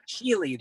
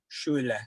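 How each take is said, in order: First: The name is said with an American pronunciation. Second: The name is said with a German pronunciation.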